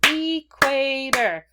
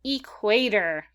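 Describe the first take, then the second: First: "Equator" stretched very slowly, higher and louder, falling; drawn-out repeat. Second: "Equator" said slowly and clearly, falling at the end; slow model word. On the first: Teacher repeats the word for students to echo, slow and loud. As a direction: draw "Equator" out high and loud. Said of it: "Go ahead and say it again". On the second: Teacher models a vocab word for kids, slow and clear. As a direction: spell out "Equator" slowly for the class. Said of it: "say it with me". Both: Shown as a demonstration.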